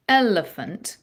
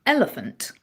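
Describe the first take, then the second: First: "elephant" said slowly with EL leaned on; drawn-out EL, lighter rest in "elephant"; exaggerated first-syllable accent. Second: Said in the usual way. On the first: Shown as a demonstration. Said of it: "you're accenting that first syllable more". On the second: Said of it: "speak it slowly and exaggerate it".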